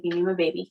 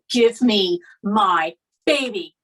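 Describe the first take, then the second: First: Said in the usual way. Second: Slow, loud, word-by-word insistence; forceful demand. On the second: Retold or imitated. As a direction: re-enact a mother demanding her child, drawn out and loud. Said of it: "That comes out. Like, I would never normally talk to you like that".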